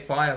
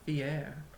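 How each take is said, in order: First: It is said with an English pronunciation. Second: It is said with a French pronunciation. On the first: "we say fire" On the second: "the French pronunciation"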